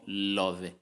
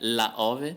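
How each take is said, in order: First: One merged word with the first vowel dropped. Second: Two separate words with both vowels kept. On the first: The speaker calls it right. "mas ficou love" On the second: The speaker calls it wrong. "Seria la ove"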